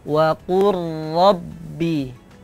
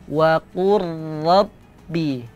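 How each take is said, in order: Both takes have the same delivery.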